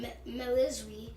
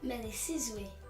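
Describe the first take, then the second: First: The name is said in a shortened form. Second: The name is said in its full form. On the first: This is the form the family currently uses. "We're still going by" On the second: This is the name's original pronunciation. "the real pronunciation is"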